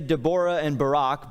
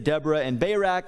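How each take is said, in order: First: The names are said in a non-American pronunciation. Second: The names are said in the American pronunciation. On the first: "Or maybe we could say" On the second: "I'll stick with the American pronunciation"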